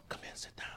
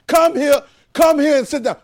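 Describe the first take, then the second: First: Barely audible whisper. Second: High, loud shouted command; loud volume. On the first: Preacher showing the class how volume changes, whispered. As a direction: drop to a hushed whisper. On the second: Preacher showing the class how volume changes, shouting. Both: Shown as a demonstration. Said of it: "But the volume changed".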